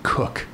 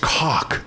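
First: The vowel does not rhyme with chalk. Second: The vowel rhymes with chalk. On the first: The speaker calls it wrong. "I could have redefined myself as [name]" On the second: The speaker calls it right. "that's not how you say it. It's cock"

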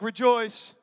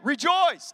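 First: It is said flatly, without enthusiasm. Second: It is said excitedly, with enthusiasm.

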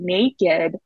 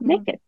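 First: The word is said slowly and carefully. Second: The word is said fast in a rural accent. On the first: The speaker calls it right. "I say it much slower" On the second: The speaker calls it wrong. "if I try to say it fast, it comes out naked and I sound like a hick"

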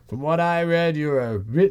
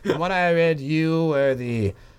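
First: The voice is plain, like the judge's voice. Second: The voice is put on and more nasal.

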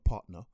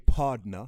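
First: It is said with a T sound in the middle. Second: It is said with a D sound in the middle. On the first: "not partner" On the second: "in a Jamaican accent, with a D"

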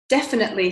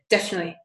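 First: Every syllable of the word is pronounced. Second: Some syllables of the word are dropped. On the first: "it goes from definitely" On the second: "she drops some of the syllables"

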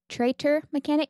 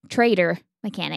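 First: The middle consonant is a clear t sound. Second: The middle consonant sounds like a d. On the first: The speaker calls it right. "It's traitor mechanic" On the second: The speaker calls it wrong. "not traitor mechanic"

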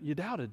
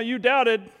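First: The voice sounds warm and gentle. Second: The voice sounds harsh and scolding. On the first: The speaker is reassuring someone while supporting them. The speaker calls it right. "imagine that Jesus is actually holding him up on the water and says to him" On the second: The speaker is rebuking someone for a failure. The speaker calls it wrong. "I think about like Jesus is scolding Peter"

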